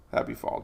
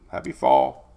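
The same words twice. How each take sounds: First: Softer throwaway Happy fall; hushed afterthought greeting; soft aside. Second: Much lower, goofy deep happy fall; mock deep-voiced greeting; deep joke voice. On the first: Acted. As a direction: say Happy fall quietly, trailing off. Repeats greeting once more, softly. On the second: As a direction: drop way down for a silly Happy fall.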